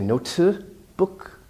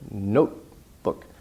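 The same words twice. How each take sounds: First: The middle T is released with air. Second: The middle T is held without release. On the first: The speaker calls it wrong. "You don't say notebook" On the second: The speaker calls it right. "but notebook"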